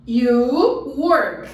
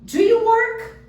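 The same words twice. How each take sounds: First: Said in the usual way. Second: You lifted high and loud, slowed; stress on you. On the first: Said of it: "Faltou o quê?". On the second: Shown as a demonstration. Teacher drills the right question for students, you stressed. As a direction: lean hard on you in Do you work. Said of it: "Olha só que legal".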